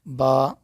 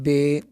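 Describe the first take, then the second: First: The letter name ends in an 'a' vowel. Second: The letter name ends in an 'e' vowel. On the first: The speaker calls it right. "अरबी में हम पढ़ेंगे" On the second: The speaker calls it wrong. "Urdu में हम पढ़ते हैं"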